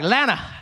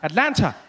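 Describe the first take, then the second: First: The word shrinks to two short syllables. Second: Every sound is said, including the t sounds. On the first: The speaker has fully adopted the local way of talking. "You just try and shrink all the words" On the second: It is how a newcomer says the city's name. "when I got here, every time I said it, I would say Atlanta"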